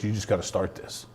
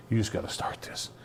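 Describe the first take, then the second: First: Said in the usual way. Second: Breathy, hushed urging; soft whispered repeat. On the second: Retold or imitated. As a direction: whisper it the second time. Wife repeats, voiceless and softer.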